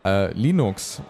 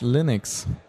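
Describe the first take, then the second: First: The word is said with a German pronunciation. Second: The word is said with an English pronunciation.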